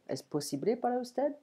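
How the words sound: The voice rises at the end like a question. It asks whether something is possible.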